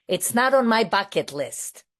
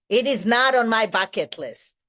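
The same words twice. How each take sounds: First: Said in the usual way. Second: "not on my bucket list" pressed harder, "not" and "on" leaned on; emphatic repeat. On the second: Shown as a demonstration. To the meeting, insisting it's no dream trip: "not" stressed. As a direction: drive home "It is not on my bucket list", with weight on "not". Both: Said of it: "Let me tell you that".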